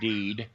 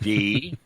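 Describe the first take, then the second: First: The syllable ends with a d consonant. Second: The syllable ends on an open vowel. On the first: The speaker calls it wrong. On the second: The speaker calls it right.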